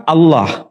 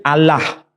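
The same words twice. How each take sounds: First: Allah with a dark, rounded second vowel, like "Alloh"; heavy L and o-like vowel in Allah. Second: Allah with a light L and open a, "Al-lah". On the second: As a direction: clear ah vowel in both syllables of Allah. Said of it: "kaum Kristen di Indonesia menyebut istilahnya". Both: Shown as a demonstration.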